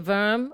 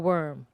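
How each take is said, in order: First: The word begins with a v sound. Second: The word begins with a w sound. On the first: "Do you think they say verm or worm?" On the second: "Do you think they say verm or worm?"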